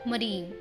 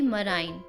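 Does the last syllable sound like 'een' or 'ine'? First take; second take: een; ine. First: The last syllable has an 'ee' vowel. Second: The last syllable has an 'eye' vowel. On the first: The speaker calls it right. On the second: The speaker calls it wrong.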